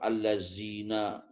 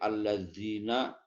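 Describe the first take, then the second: First: It is said in a West Javanese accent. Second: It is said in standard Arabic pronunciation.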